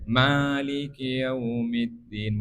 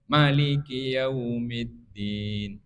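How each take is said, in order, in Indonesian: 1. Vokal pertama ma dibaca panjang. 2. Vokal pertama ma dibaca pendek. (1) "Boleh ma-nya panjang" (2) "boleh ma-nya pendek"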